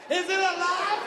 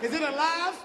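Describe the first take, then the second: First: Higher, more alarmed "Is it alive?". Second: Said in the usual way. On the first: Shown as a demonstration. Comic about LeBron's hairline, rising alarm. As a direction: ask it again, more alarmed.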